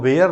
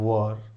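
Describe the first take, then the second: First: The word rhymes with 'air', like 'wear'. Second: The word has a short 'ur' vowel, like 'wur'. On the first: The speaker calls it wrong. "उसको वेयर नहीं पढ़ते" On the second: The speaker calls it right. "उसको हम पढ़ते हैं वर"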